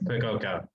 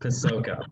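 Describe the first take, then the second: First: The middle consonant is a k sound. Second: The middle consonant is an s sound. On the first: The speaker calls it wrong. "everyone says Pacoca" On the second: The speaker calls it right. "It's Pasoka"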